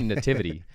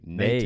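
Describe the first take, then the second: First: The first syllable is short, without a long nay. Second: The first syllable is a drawn-out nay sound. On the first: "I say nativity" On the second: "you say nativity ... why do you hold out that nay?"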